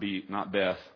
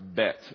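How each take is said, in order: First: The word ends in a 'th' sound. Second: The word ends in a hard 't' sound. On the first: The speaker calls it wrong. "not Beth" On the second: The speaker calls it right. "It's pronounced bet. It's a hard T"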